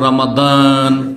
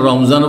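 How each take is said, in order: First: The middle consonant is a d sound. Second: The middle consonant is a z sound. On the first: It is said when reciting scripture. "তেলাওয়াত করতে দেওয়া হচ্ছে শাহরু রমাদান" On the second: It is said in everyday speech. "যখন বলছে রমজান মাস তখন রমজান বলছে"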